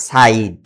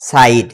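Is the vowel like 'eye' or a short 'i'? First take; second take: eye; eye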